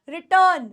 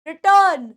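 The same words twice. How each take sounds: Both takes have the same delivery.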